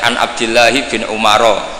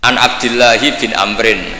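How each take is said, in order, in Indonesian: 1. Nama belakangnya diucapkan Umaro. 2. Nama belakangnya diucapkan Amrin. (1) "itu gurunya langsung tahu" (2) "berarti bener"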